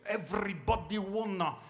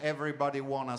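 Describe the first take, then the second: First: It is said with a heavy put-on accent. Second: It is said plainly, without the put-on accent. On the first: The speaker calls it right. "Con l'accento dovete fare, ... si dice everybody wanna" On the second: The speaker calls it wrong. "non si dice everybody wanna"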